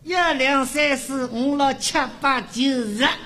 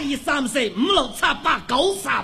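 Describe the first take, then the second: First: The numbers are counted lightly in a Shanghai accent. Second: The numbers are counted forcefully in a Cantonese accent. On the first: "上海人数数" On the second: "不使劲说不出来"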